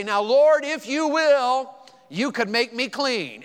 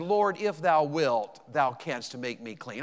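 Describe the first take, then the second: First: High, loud and slow, like giving orders; brash demanding version. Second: Reverent slow plea. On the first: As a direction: push it like a bold demand. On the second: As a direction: let the old words linger gently. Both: Shown as a demonstration. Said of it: "We'd say it like this".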